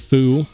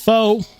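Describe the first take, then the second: First: The vowel is a rounded 'oo' sound. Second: The vowel is a rounded 'oh' sound. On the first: "It's not foo" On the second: "It's not, it's not faux"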